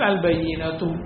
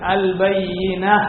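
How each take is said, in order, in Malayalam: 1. ഈ വാക്ക് tu ശബ്ദത്തിലാണ് അവസാനിക്കുന്നത്. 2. ഈ വാക്ക് മൃദുവായ h ശബ്ദത്തിലാണ് അവസാനിക്കുന്നത്. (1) "കൂട്ടി വരികയാണെങ്കിൽ" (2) "നിർത്തുമ്പോൾ ... ഹ ആണ് കേൾപ്പിക്കേണ്ടത്"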